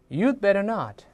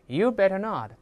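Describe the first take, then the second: Both takes have the same delivery.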